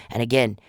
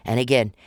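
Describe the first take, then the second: No difference in how they are said.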